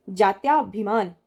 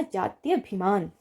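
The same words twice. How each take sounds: First: जात्याभिमान drawn out with the long या; wrong form, slowly. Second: जात्यभिमान with short य, slowly; correct form, slowly. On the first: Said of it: "जात्याभिमान नहीं होता है". (गलत रूप जात्याभिमान, धीरे-धीरे) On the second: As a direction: spell out जात्यभिमान slowly and clearly. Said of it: "जात्यभिमान होता है". (सही रूप जात्यभिमान, धीरे और साफ़) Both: Shown as a demonstration.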